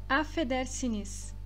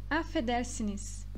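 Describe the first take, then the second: The two takes are said the same way.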